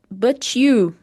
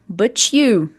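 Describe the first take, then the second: No difference in how they are said.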